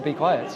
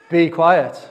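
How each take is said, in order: First: Said in the usual way. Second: Loud, firm order to silence; stern command. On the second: Acted. Jesus silencing the demon, stern command. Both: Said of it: "Jesus said sternly".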